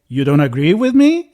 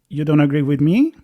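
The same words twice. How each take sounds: First: It is said in a hostile, accusing tone. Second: It is said in a calm, neutral tone. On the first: It attacks the other person for disagreeing. "It's more like ... the tone of voice, right? That really changed the question" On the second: It simply states a difference of opinion. "it's not like"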